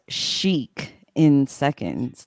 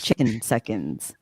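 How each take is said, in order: First: The start is said as 'chic' then 'in'. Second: The start is said as one word 'chicken'. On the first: The speaker calls it right. "It obviously says chic in seconds" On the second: The speaker calls it wrong. "not chicken seconds"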